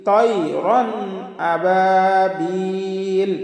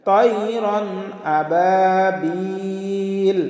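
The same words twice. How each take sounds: No difference in how they are said.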